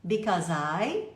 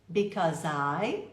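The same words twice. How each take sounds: The two takes are said the same way.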